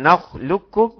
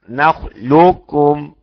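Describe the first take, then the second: First: The qaf merges completely into the kaf. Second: The qaf's heavy quality is kept before the kaf. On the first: "الادغام الكامل" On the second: "بتجيب الاستعلاء بتاع القاف فقط، اسمه الادغام ناقص"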